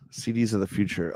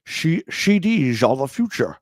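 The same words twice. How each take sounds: First: Said in the usual way. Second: Put-on Scottish Sean Connery accent, every s slurred to sh; "C Ds" as "shee deezh", Sean Connery voice; Sean Connery impression. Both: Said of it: "You need to do that in a Sean Connery accent".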